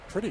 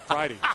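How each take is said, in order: First: The name sounds like the word pretty. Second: The name sounds like pride with an ee ending. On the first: This is how the sister says the family name. "She prefers Pretty, the pronunciation of that name" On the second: This is how the player says his own name. "He's Pridey"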